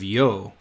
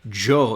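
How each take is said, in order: First: It starts with a soft Y sound. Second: It starts with a hard J-like sound. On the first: "instead of yo" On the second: "they hard pronounce that y"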